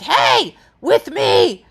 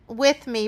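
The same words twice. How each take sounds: First: Loud stern "Hey, with me" to the dog; sharp scolding cue. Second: Said in the usual way. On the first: Shown as a demonstration. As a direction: bark "Hey, with me" like a stern correction. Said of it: "but I wasn't like". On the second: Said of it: "I reminded him".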